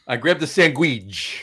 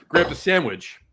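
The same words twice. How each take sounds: First: "sandwich" said slowly as SANG-gweej; Jersey Italian "sandwich", sang-GWEEJ; sandwich as "sangweech". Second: Said in the usual way. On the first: Shown as a demonstration. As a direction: draw out "sandwich" with a gw in the middle. Repeats it in Jersey Italian pronunciation.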